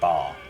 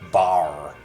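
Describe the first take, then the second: First: It is said in an English accent. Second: It is said in an American accent. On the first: "They don't say bar like the English do" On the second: "They go bar"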